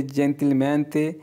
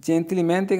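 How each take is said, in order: First: "gentilmente" drawn out syllable by syllable; slow model word. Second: Said in the usual way. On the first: Shown as a demonstration. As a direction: spell out "gentilmente" slowly for learners. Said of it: "teacher models Italian word". ("gentilmente" बहुत धीरे, हर अक्षर अलग) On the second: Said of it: "word said again in explanation".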